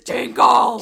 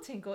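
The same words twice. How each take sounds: First: The word is said loudly and with big energy. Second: The word is said softly and small. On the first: It is a big, dramatic sound. The speaker calls it right. "In big font, it says, tinkle!" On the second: It is a small, minor sound. The speaker calls it wrong. "A little tinkle"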